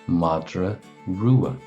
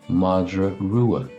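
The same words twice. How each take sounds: No difference in how they are said.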